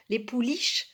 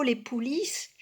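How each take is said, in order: First: "pouliches" ending in a sh sound; corrected pronunciation. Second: "pouliches" ending in an s sound; mispronounced word. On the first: Reader correcting a slip, "pouliches" said with final sh. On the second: Reader slipping while reciting, "pouliches" said with final s. Slip, corrected straight after. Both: Real, not acted.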